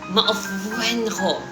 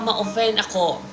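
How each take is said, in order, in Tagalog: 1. Ang tunog na f ay may malakas na diin. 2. Ang tunog na f ay binibigkas nang plain.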